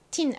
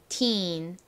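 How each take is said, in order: First: The vowel is said short and clipped. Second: The vowel is said long and drawn out. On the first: The speaker calls it wrong. "teen 아니고요" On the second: The speaker calls it right. "길게 teen"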